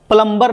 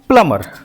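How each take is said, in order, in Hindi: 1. m के बाद b की आवाज़ बोली जाती है। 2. m के बाद b की आवाज़ साइलेंट होती है। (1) "प्लम्बर नहीं पढ़ते हैं" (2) "इसको पढ़ते हैं प्लमर"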